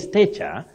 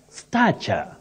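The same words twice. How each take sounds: First: The first vowel is not a low front vowel. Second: The first vowel is a low front vowel. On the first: The speaker calls it wrong. "don't say stature" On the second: The speaker calls it right. "you say stature. That A takes the low front sound A"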